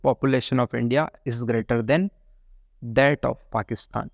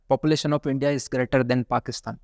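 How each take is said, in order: First: Slow, careful reading that leans on "that of Pakistan"; stress on that of. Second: Said in the usual way. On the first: Shown as a demonstration. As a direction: spell out "that of" so it can't be missed. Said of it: "आपको बोलना चाहिए". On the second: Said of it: "That is the wrong expression".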